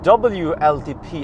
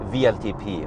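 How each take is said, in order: First: The first letter is said as 'double-u'. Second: The first letter is said as 'vee'. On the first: This is how others insist it is said. "it's called W L T P" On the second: This is the German way of saying it. "I'm half German. I say V L T P"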